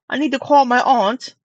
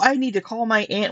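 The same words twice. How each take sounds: First: 'Aunt' is said in a British way. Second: 'Aunt' is said in an American way.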